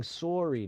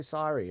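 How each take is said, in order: First: "sorry" with a round O, SORE-ee; Canadian pronunciation. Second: "sorry" with an open A, SAH-ree; American pronunciation. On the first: Streamer adopting a Canadian habit, round-O "sorry". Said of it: "I also like saying sorry now". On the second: Streamer showing the dropped habit, American open-vowel "sorry". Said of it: "I don't say sorry anymore". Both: Shown as a demonstration.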